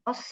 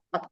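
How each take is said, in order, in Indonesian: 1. Kata ini berakhir dengan bunyi s. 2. Kata ini berakhir dengan bunyi t. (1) "Jadi bukan os ya" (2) "Jadi langsung ot"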